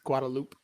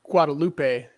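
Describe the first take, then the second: First: It uses the pronunciation used in Texas. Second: It uses a pronunciation not used in Texas. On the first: The speaker calls it right. "it's Guadalupe, right?" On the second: The speaker calls it wrong. "in Texas, it's it's not Guadalupe"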